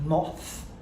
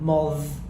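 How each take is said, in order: First: The th sound is unvoiced, as normal. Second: The th sound is voiced instead.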